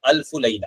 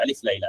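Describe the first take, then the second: First: The first word is said as alfu. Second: The first word is said as alif. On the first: This is the actual Arabic form. The speaker calls it right. "अलिफ लैला के बजाय अल्फु Laila" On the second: This is how Indians commonly say it. The speaker calls it wrong. "अलिफ लैला के नाम से हमारे इंडियन लोग बोलते हैं"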